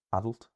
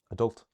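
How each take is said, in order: First: "adult" stressed on the first syllable, raised pitch. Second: "adult" stressed on the second syllable, high and loud; quick unstressed "a", then punch DULT in "adult". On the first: Teacher showing what stress is, "adult" with first-syllable stress. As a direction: hit the AD of "adult" and keep the end short. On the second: Teacher contrasting English words, "adult" with second-syllable stress. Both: Shown as a demonstration. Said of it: "difference between the English words".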